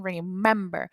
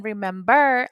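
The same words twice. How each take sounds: First: Remember with MEM stressed, re-MEM-ber; stress on middle syllable. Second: Remember with the final syllable stressed, remem-BER; stress on last syllable. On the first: Teacher correcting the stress for students, remember stressed on the middle syllable. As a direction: put the weight on the "mem" of remember. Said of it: "I am saying remember". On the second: Teacher contrasting for students, remember wrongly stressed on the last syllable. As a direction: hit the "ber" at the end of remember. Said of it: "I am not saying remember". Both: Shown as a demonstration.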